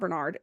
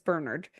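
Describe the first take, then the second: First: The name is said in a non-British way. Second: The name is said in a British way. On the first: The speaker calls it wrong. "It's not Bernard" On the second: The speaker calls it right. "the way that the British say Bernard"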